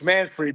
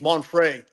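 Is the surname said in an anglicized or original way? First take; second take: anglicized; original. First: The surname is said with an anglicized pronunciation. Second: The surname is said with its original pronunciation. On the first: This is the everyday form used growing up. "as a guy from Brooklyn, it's it's Manfrey" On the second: This is the family's true form of the name. "the real pronunciation is Monfrey"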